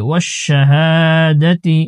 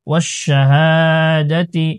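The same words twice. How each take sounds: No difference in how they are said.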